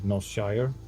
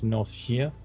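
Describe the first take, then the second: First: It is pronounced the American way. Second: It is pronounced the British way. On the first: "People from U S, they pronounce it Northshire" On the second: "Folk from the U K say it's Northshire"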